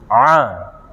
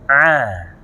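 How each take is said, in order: First: It is said with the mouth nearly closed. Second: It is said with the mouth opened. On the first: The speaker calls it wrong. "dia tutup-tutup" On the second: The speaker calls it right. "Kalau dia buka mulutnya"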